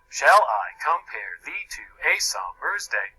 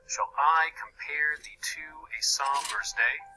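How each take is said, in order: First: Stress falls on every first syllable of pairs. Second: Stress falls on every second syllable. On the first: The speaker calls it wrong. "read in the opposite meter" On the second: The speaker calls it right. "my pronunciation matches the poetic meter"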